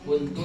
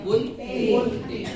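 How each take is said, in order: First: The word ends with an 'u' vowel. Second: The word ends with an 'i' vowel. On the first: The speaker calls it right. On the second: The speaker calls it wrong.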